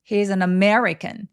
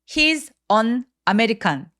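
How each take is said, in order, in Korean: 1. 단어들을 한 호흡에 이어서 말해요. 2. 각 단어를 따로 또렷하게 말해요. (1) "한 호흡으로 덩어리지게 말해야 돼요" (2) "혹시 He's an American 이렇게 읽지 않으셨나요?"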